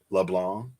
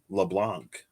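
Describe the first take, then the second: First: No c sound is pronounced at the end. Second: A c sound is pronounced at the end. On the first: The speaker calls it right. "You don't pronounce the C in LeBlanc?" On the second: The speaker calls it wrong. "I thought it was LeBlanc"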